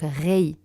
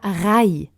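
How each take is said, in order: First: The vowel sounds like 'ei'. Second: The vowel sounds like 'ai'. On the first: The speaker calls it right. "donc rei" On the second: The speaker calls it wrong. "mais c'est pas rai"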